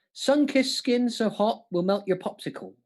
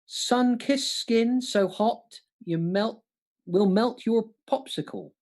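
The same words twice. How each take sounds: First: Said in the usual way. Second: Slow, drawn-out reading of the lyric; slow deliberate recital. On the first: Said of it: "If I say it like that". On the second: Shown as a demonstration. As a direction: stretch every word of the quote out. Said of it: "Name that song".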